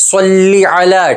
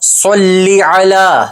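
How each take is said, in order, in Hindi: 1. पहला शब्द ee ध्वनि पर खत्म होता है। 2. पहला शब्द ee ध्वनि पर खत्म होता है।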